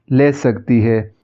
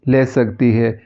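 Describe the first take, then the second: No difference in how they are said.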